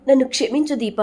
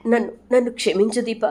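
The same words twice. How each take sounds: First: Higher, rising mock-sobbing apology; more desperate tearful plea. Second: A lightly voiced sob-choked apology, higher; tearful plea for forgiveness. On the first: Sumitra begs Deepa again: higher, more desperate plea. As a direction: repeat the apology with stronger pleading. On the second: Sumitra to Deepa, apologising: mild tearful plea. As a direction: begin begging forgiveness through mild tears. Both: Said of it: "వెక్కి వెక్కి ఏడుస్తుంది".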